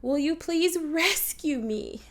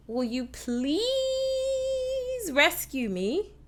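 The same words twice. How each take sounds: First: Slower line with weight on "rescue"; stress on RESCUE. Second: "please" drawn way out; long, rising "please" before the rest; stress on PLEASE. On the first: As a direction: punch "rescue" rather than "please". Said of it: "Or you could say". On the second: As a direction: stretch "please" long and pleading. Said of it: "Really giving emphasis to the word please". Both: Shown as a demonstration.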